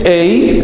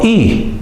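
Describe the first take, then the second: First: It is said as a glide, ei. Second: It is said as a single vowel, i. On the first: The speaker calls it wrong. "no es ei" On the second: The speaker calls it right. "sino i"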